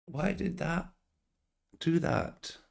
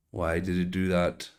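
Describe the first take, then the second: First: Baffled. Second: Said in the usual way. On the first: Real, not acted. Baffled by the crash.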